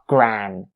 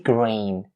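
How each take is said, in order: First: The vowel is a short 'ah' sound. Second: The vowel is a long 'ay' sound. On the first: The speaker calls it wrong. "make sure you don't turn its vowel into eh or ah" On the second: The speaker calls it right. "It has to be grain. It aims out the A sound"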